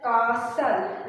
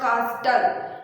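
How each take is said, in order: First: The T sound is silent. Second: The T sound is clearly heard. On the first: The speaker calls it right. "the word is pronounced as castle" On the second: The speaker calls it wrong. "It's not castle"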